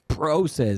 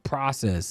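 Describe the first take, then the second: First: It is said the Canadian, Montreal way. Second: It is said the speaker's usual, non-Canadian way. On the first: "In Canada and Montreal" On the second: "instead of"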